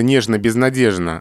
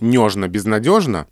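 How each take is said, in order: First: The stressed vowel in безнадежно sounds like e. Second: The stressed vowel in безнадежно sounds like yo. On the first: The speaker calls it right. "все-таки это нежно-безнадежно" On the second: The speaker calls it wrong. "а не нежно-безнадежно"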